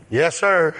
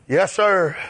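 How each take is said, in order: Both takes have the same delivery.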